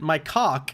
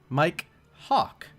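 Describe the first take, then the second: First: The two words are run together smoothly. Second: The two words are carefully separated. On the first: The speaker calls it wrong. "most people would pronounce it Mike Hawk, which sounds terrible" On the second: The speaker calls it right. "I will enunciate the word properly"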